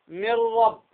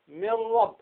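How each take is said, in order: No difference in how they are said.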